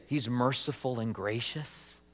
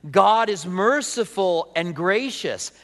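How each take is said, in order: First: Soft, low, hesitant question; doubtful question. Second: Slow, firm declaration stressing GOD; emphatic affirmation. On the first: Acted. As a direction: ask it quietly, as if it hardly fits. Doubtful question about himself, then contrast. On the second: Real, not acted. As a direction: declare it slowly, leaning on "God". Emphatic answer contrasting God with himself.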